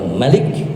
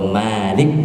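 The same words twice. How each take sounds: First: The first vowel is short. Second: The first vowel is long. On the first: It means king. "kalau Malik raja" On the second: It means owner. "kalau Malik yang memiliki"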